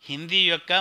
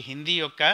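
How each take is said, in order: Both takes have the same delivery.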